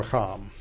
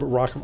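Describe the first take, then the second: First: "racham" stressed on its final syllable; stress on last syllable. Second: "racham" stressed on its first syllable. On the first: Teacher corrects the Hebrew verb, "racham" stressed on last syllable. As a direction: say "racham" as ra-CHAM, weight on the end. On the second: Teacher first tries the Hebrew verb, "racham" stressed up front. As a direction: say "racham" with RA strong and cham weak. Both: Shown as a demonstration. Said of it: "Hebrew usually accents the last syllable".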